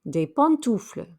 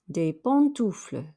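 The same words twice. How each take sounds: Both takes have the same delivery.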